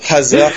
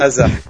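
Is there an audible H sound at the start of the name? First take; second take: yes; no. First: The name starts with an audible breathy H. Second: The name starts directly with the vowel. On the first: The speaker calls it wrong. "je t'ai senti vouloir prononcer un peu Hazard comme ça" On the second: The speaker calls it right. "Oui, Eden Hazard"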